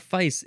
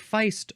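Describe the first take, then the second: First: The word ends without any T sound. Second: The word ends with a clear T sound. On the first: "you can say Feist without the T sound"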